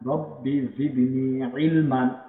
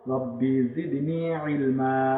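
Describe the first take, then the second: First: The last word ends with an n sound. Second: The last word ends on an open vowel. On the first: This is the full form as written. "এই যেখানে লেখা আছে" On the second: This is how it is read when stopping. "আমরা যখন দম ছেড়ে পড়বো তখন কিভাবে পড়বো"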